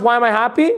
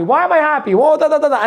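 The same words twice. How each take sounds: First: Said in the usual way. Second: "Why am I happy?" asked higher and brighter, savoring the I; delighted wondering question. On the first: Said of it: "When you're happy, do you ever ask". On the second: Shown as a demonstration. Coach urging the audience to savor happiness, mock-delighted higher voice. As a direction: ask "Why am I happy?" with high pleased curiosity. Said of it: "Maybe that's what you should do".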